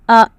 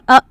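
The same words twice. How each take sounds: First: The vowel starts and flows smoothly. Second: The vowel starts with an abrupt jerk. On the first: The speaker calls it right. "It should be pronounced smoothly" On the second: The speaker calls it wrong. "You should not pronounce it with a jerk. It is not a"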